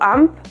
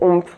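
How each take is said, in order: First: The ending is said with an 'a' vowel. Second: The ending is said with an 'o' vowel. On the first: This is the Vannetais and Groix dialect form. "en Vantai et à Groix, on prononcera ça plutôt amp" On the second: This is the form used in other dialects. "dans les autres dialectes, on pourra dire omp"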